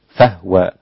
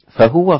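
First: The h sound has no vowel after it. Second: The h sound is followed by a vowel.

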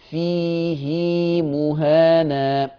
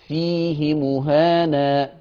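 First: The vowel after the h is lengthened. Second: The vowel after the h is short. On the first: "حفص بيعمل لها صلة" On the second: "ورش ما بيعملش صلة"

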